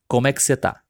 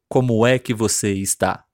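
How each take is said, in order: First: The last word is shortened to 'tá'. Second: The last word is said in full, 'está'. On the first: The speaker calls it right. "Algumas letras e sílabas desaparecem mesmo" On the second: The speaker calls it wrong. "Não como é que você está"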